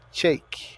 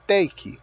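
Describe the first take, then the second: First: The T is said with an extra flourish. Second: The T is said plainly, without flourish. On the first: The speaker calls it right. "faz um charme no T" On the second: The speaker calls it wrong. "ao invés de falar take"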